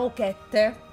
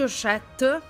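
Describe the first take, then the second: First: The middle consonant is a k sound. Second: The middle consonant is an sh sound. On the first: The speaker calls it wrong. "non credo sia Okette" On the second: The speaker calls it right. "penso si pronunci Oshette"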